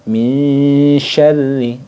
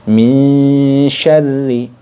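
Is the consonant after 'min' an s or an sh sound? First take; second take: sh; sh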